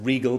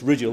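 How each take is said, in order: First: It is said like the word regal. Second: It is said unlike the word regal. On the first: This is a common popular pronunciation. The speaker calls it wrong. "sometimes people pronounce it as Regal" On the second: This is the proper pronunciation. The speaker calls it right. "but it's Rigel"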